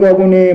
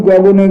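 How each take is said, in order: Both takes have the same delivery.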